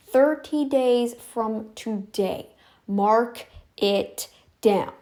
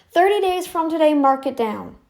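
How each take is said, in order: First: Word by word, very slow; half-speed, emphatic enunciation; slow, deliberate. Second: Higher, louder, at normal pace; raised, insistent voice; emphatic deadline. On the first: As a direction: spell out the deadline with spaced words. Repeats deadline word by word. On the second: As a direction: lay down the deadline forcefully. Sets deadline, then repeats slowly. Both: Real, not acted.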